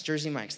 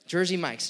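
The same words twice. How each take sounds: First: Said in the usual way. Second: Jersey Mike's said louder, pressed hard as the right name; emphatic correction. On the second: Real, not acted. Pastor correcting his slip to the congregation, loud and emphatic. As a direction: set the record straight with weight on Jersey Mike's. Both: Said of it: "I repent".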